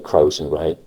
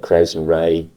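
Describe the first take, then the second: First: The first word has a soft vowel, like 'crows'. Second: The first word has a hard vowel, like 'Christ'. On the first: The speaker calls it wrong. "You don't say" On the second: The speaker calls it right. "there's a hard ow sound. It's a hard ow"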